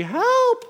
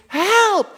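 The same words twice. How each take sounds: First: Tiny high squeaked help; a strangled high little help; stifled squeak. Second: High loud scream for help; screaming help at the top of his voice. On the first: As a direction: squeak it out, trying not to be heard. Man in gorilla suit can't cry out. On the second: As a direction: yell it out in panic. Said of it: "and he screams". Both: Acted.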